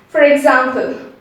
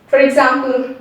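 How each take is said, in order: No difference in how they are said.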